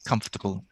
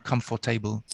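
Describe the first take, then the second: First: The word is said with one syllable fewer. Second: The word is said with an extra syllable. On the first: The speaker calls it right. "It's one less one less syllable" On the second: The speaker calls it wrong. "you said, as many people do"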